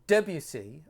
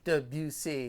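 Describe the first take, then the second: First: One syllable is stressed more than others. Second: The syllables carry equal stress. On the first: The speaker calls it wrong. "I would say Debussy" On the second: The speaker calls it right. "making sure I have even accents on my syllables like they do in French"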